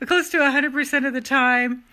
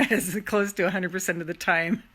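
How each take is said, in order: First: Higher and louder, driving it home; loud emphatic. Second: Said through a laugh. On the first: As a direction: proclaim it with force. Repeats the phrase, shouted. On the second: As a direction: chuckle the words out. Repeats the phrase, second take shouted. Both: Real, not acted.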